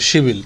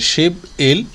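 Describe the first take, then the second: First: The consonant runs into the vowel: one word. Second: The two parts are said as separate words. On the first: The speaker calls it right. "মূলত এটার উচ্চারণটা হবে হলো শিবিল" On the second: The speaker calls it wrong. "শিপ ইল হচ্ছে ইলেভেন"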